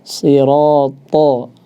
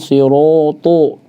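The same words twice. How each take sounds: First: The sound is heavy without pushing the lips. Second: The lips are pushed forward in a pout. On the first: The speaker calls it right. "cukup ditebalkan saja" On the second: The speaker calls it wrong. "jangan sampai dimonyongkan"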